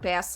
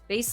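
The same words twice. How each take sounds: First: It is pronounced like the fish word bass. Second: It is pronounced like the guitar word bass. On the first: It refers to the fish. "bass like the fish" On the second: It refers to the low-pitched instrument. "Bass like guitar"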